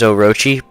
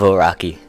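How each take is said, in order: First: The name ends with a 'chi' sound. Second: The name ends with a 'ki' sound. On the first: The speaker calls it right. "the correct way to pronounce it is Orochi" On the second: The speaker calls it wrong. "I pronounced it Oraki"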